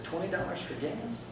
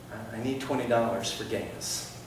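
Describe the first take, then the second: First: Soft echo, rising on "gas"; questioning echo. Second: Said in the usual way. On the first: Retold or imitated. Man repeats stranger's request back, softly questioning. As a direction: query it quietly, voice lifting at "gas".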